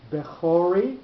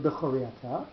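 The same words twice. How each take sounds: First: Bechori stressed on CHO, be-CHO-ri; stress on middle syllable. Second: Bechoriata with the accents on the last syllables, bechoRI aTA; end-stressed bechoriata. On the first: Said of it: "with the accent on the middle syllable". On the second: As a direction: say bechoriata stressed at the ends, not on CHO. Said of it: "the pronunciation is not". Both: Shown as a demonstration.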